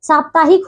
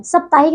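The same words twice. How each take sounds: First: साप्ताहिक with a long first "saa"; correct pronunciation. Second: साप्ताहिक with a short first "sa": saptahik; mispronunciation. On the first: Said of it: "साप्ताहिक होता है". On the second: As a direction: clip the first vowel of साप्ताहिक to "sa". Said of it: "साप्ताहिक नहीं होता". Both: Shown as a demonstration.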